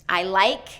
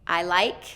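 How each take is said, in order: No difference in how they are said.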